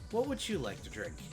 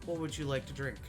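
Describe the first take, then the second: First: It is said in a slightly feminine voice. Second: It is said in a plain, non-feminine voice.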